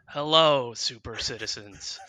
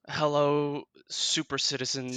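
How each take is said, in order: First: It is said with higher energy. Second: It is said with low energy.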